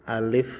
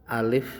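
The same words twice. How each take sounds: The two takes are said the same way.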